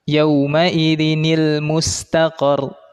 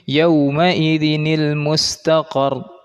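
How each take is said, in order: First: A linking 'nil' sound joins the words together. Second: The same.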